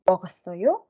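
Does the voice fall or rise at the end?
rise. The voice rises at the end. It is a question.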